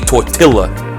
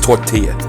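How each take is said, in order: First: The word is said with an English-style pronunciation. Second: The word is said with a Spanish-style pronunciation. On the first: The speaker calls it wrong. "You don't say tortilla, do you?" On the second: The speaker calls it right. "It's tortilla. Say shit right"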